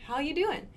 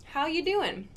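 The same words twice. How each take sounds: First: Dropped g, high and casual doing; casual how you doing. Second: "doing" said doin with a falling end; casual how you doing. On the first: Teacher demos a relaxed greeting to learners. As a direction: say doing as doin, easygoing and high. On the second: Teacher repeats the casual greeting for the class. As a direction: slide down on doin, relaxed. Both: Shown as a demonstration. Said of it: "So this sounds really casual".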